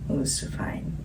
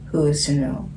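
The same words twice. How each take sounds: First: Hushed whisper. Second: Said in the usual way. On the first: Real, not acted. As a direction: breathe it out as a whisper. Musing line whispered.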